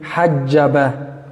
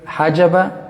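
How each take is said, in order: First: The middle consonant is pressed and held long. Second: The middle consonant is short and single. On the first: Another root with a doubled letter. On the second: One root meaning to put a barrier.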